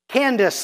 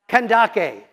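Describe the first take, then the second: First: The name is said with two syllables. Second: The name is said with three syllables. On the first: It is heard as an ordinary female first name. The speaker calls it wrong. "This isn't Candace like Alice or Mary or another female name" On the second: It is heard as a royal title. The speaker calls it right. "it should be pronounced Kandake"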